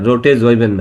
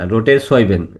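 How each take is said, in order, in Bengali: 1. দ্বিতীয় শব্দটি একটি গুঞ্জনধর্মী z ধ্বনি দিয়ে শুরু হয়। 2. দ্বিতীয় শব্দটি একটি শিসের মতো s ধ্বনি দিয়ে শুরু হয়। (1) "রোটে জৈবেন না" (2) "জেড আছে কিন্তু উচ্চারণ করবে এস এর"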